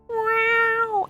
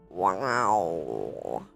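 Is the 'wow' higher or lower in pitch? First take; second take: higher; lower. First: The word is said at a higher pitch. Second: The word is said at a lower pitch. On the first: "instead of wow" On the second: "lower the pitch of the wow"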